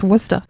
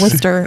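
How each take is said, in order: First: The word is pronounced differently from its spelling. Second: Every written syllable of the word is pronounced. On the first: The speaker calls it right. "It's pronounced" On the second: The speaker calls it wrong. "It's definitely not also pronounced"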